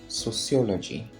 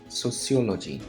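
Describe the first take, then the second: Both takes have the same delivery.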